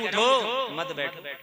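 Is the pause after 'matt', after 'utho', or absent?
after utho. The pause comes after 'utho', meaning stand up.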